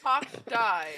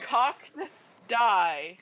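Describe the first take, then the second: First: It is said at normal speed. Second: It is said slowly and deliberately.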